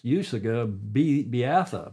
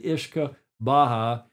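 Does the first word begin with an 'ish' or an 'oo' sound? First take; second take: oo; ish. First: It is read as spelled, starting with 'oo'. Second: It is said as 'ishka baha', starting with 'ish'. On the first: The speaker calls it wrong. "It looks like" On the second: The speaker calls it right. "it's pronounced properly"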